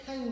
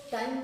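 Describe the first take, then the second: First: टाइम as "thaim", with ठ; टाइम starting on a breathy ठ; aspirated T. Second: टाइम with a plain ट; टाइम, hard T without breath; unaspirated T. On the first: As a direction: say टाइम with a puff on T. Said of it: "टी और के के साथ एच का combination". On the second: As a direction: say टाइम with no puff on the T. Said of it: "टाइम नहीं बोलते हैं". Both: Shown as a demonstration.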